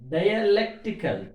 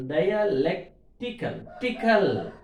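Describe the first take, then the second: First: "dialectical" as one word, LEC raised; stress on LEC. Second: "dialectical" slowly broken before "tickle"; syllables split for stress. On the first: Teacher giving students an example, stress on LEC in "dialectical". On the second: Teacher dividing the word for students, slow split "dialectical". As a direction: pull LEC apart from the ending of "dialectical". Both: Shown as a demonstration. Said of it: "suffix before syllable".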